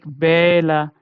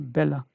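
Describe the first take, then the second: First: The first vowel is drawn out long. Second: The first vowel is short and quick. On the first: The speaker calls it wrong. "not like bella. No, that's not right again" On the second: The speaker calls it right. "So it should be bella"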